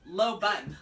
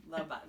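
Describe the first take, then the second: First: Blunt firm low bun, punched out; deadpan order. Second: Low, quiet, pained low bun; pained deadpan. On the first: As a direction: bark it like a stern stylist. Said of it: "So serious". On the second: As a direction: sigh it out like a weary expert. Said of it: "Pained by your ignorance". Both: Retold or imitated.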